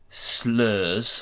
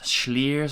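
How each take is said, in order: First: The word begins with a plain s sound. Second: The word begins with an sh sound. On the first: This is how the name looks when read. The speaker calls it wrong. "clearly it looks like slurs" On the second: This is how the name is apparently said. The speaker calls it right. "apparently it's like a sh schliers"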